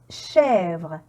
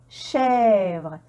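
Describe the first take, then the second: Both takes have the same delivery.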